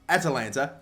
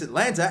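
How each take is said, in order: First: The name is said with four syllables. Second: The name is said with three syllables. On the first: The speaker calls it right. "There you go" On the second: The speaker calls it wrong. "I think I pronounced it wrong"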